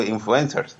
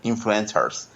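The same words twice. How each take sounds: First: Influencers said Spanish-style as "in-flu-EN-sers"; Hispanicized pronunciation. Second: Influencers said with an attempted English sound; English pronunciation. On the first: Guest admitting his limited English, influencers pronounced Spanish-style. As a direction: give influencers Spanish vowels, stress on EN. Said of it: "también digo influencers". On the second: Guest showing what he doesn't say, influencers pronounced English-style. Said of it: "no digo influencers". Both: Shown as a demonstration.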